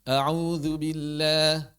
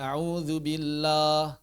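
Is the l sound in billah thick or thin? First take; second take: thin; thick. First: The l in billah is thin and light. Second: The l in billah is thick and heavy. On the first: The speaker calls it right. "Baca tipis" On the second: The speaker calls it wrong.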